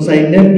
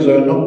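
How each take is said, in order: First: The name is said the Turkish way, ending 'neb'. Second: The name is said the Bengali way, 'Joynob'. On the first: This is the form used in Turkey. "এটার নাম সে রাখলো জাইনেব" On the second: This is the form used locally. "আমরা যেটাকে জয়নব বলি"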